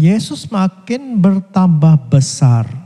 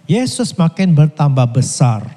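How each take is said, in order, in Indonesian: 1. Dibaca pelan dan sengaja. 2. Dibaca dengan kecepatan normal.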